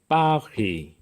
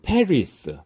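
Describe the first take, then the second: First: It is said the French way, with no final s. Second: It is said the English way, with final s. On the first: "프랑스어 발음으로 파리" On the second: "우리가 영어로 페리스"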